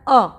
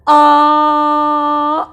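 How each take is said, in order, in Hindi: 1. स्वर छोटा और तेज़ है। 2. स्वर लगभग तीन गुना देर तक बोला जाता है। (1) "बहुत कम समय लगा ना उच्चारण करने में" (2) "तीन गुना बढ़ गया ना"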